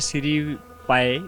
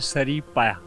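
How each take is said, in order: First: The first vowel sounds like 'ee'. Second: The first vowel sounds like 'uh'. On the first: The speaker calls it wrong. "Guest लोग बेचारे कहते हैं कि ये सीरी पाए, लेकिन ये जो वर्ड है ये दुरुस्त नहीं है" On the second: The speaker calls it right. "ये सही मानों में देखा जाए तो ये है सरी पाया"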